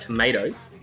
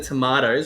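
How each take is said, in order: First: It is said in an American accent. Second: It is said in a non-American accent.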